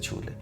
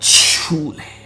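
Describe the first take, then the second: First: The word is said plainly, without extra force. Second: The word is said with strong force and punch. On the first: "ऐसे नहीं बोलते हैं" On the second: "छू में आपको दम देने का है"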